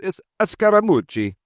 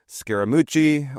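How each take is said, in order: First: Scaramucci said in a playful Italian accent, high and sung; Italian accent on Scaramucci, bouncy and high. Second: Said in the usual way. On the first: Shown as a demonstration. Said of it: "if you really want to throw in the Italian accent". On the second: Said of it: "or if you really want to throw in the Italian accent".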